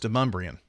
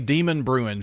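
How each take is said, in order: First: The name sounds like 'Demumbrian'. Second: The name sounds like 'Demon Bruin'. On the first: The speaker calls it right. "but it's" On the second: The speaker calls it wrong. "they will say"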